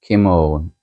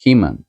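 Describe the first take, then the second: First: "Kimon" drawn out with a full "-own" ending; "Kimon" with a long o, not a swallowed ending; Greek-style pronunciation. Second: Said in the usual way. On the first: Shown as a demonstration. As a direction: say "Kimon" slowly as "kim-OWN". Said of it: "more of a British pronunciation". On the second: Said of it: "Things like".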